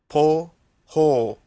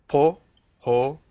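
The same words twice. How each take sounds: The two takes are said the same way.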